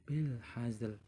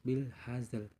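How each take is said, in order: The two takes are said the same way.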